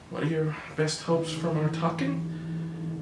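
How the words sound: The question is asked in a hesitant, unsure voice. The asker seems uncomfortable and not to know what they are doing. The speaker calls it wrong. "It doesn't sound like I know what I'm doing"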